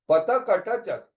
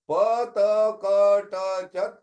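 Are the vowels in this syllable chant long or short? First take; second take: short; long. First: The vowels are said short. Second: The vowels are said long. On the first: "These are all short vowels" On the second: "they become long or guna akars"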